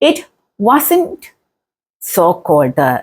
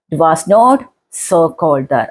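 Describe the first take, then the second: First: 'Was not' is contracted to 'wasn't'. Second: 'Was not' is said as two full words.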